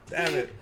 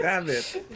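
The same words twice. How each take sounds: First: Said in the usual way. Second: Laughing. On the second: Real, not acted. Laughing at own joke.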